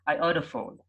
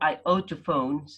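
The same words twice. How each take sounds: First: The two T sounds merge into one. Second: Both T sounds are pronounced separately. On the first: "they say" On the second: "instead of saying"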